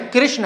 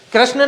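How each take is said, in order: First: "कृष्ण" as krishna, with ri; corrected pronunciation. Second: "कृष्ण" pitched up as krashna, with ra; rejected pronunciation. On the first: Teacher giving pupils the right form, "कृष्ण" as krishna. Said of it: "वो क्या है?". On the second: Teacher rejecting the wrong form, "कृष्ण" as krashna. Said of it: "कृष्ण नहीं है". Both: Shown as a demonstration.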